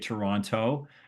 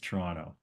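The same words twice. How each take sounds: First: The second T sound is clearly pronounced. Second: The second T sound is dropped. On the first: The speaker is from somewhere else. The speaker calls it wrong. "If you come up here and say Toronto, we know you're a come from aware" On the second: The speaker is a local. The speaker calls it right. "you don't pronounce the second T"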